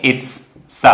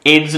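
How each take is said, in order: First: IT'S ending in a voiceless hissed s; correct s ending. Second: IT'S said with a buzzing z, as idz; wrong voiced ending. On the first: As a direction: say "it's" softly, then isolate the स sound. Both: Shown as a demonstration. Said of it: "it's नहीं बोलेंगे".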